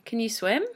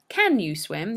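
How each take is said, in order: First: The word can is reduced to kun. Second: The word can has a full vowel. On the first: The speaker calls it right. "You say" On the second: The speaker calls it wrong. "you don't say"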